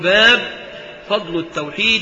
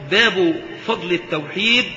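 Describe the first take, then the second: First: The word bab ends on a bare b sound. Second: The word bab ends with a u vowel linked onward. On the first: It is only a heading in a list of chapters. "على سبيل تعداد الأبواب تسكن" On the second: The word is joined to the phrase that follows. "فهذا على الإضافة إلى ما بعد"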